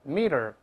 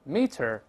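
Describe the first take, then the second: First: The middle consonant is a soft d-like sound. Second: The middle consonant is a clear t sound. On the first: "再快一点之后呢，中间这个t 又会浊化成的的声音" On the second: "所以变成这个拼写加儿化韵，再来一遍meter"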